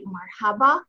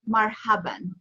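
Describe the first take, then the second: First: The word ends in an open vowel. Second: The word ends with an added n sound. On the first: This is the everyday conversational form. "in general conversation, typically you'll say marhaba" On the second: This is the classical Arabic form. "in classical Arabic, it's actually pronounced marhaban"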